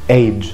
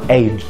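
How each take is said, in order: Both takes have the same delivery.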